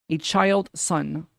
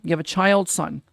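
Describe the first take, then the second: First: Put-on "A child son" drawn out slowly with weight on child; slow down and lean on "child"; "child" said slowly and pointedly; slow stress on child. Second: Said in the usual way. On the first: Shown as a demonstration.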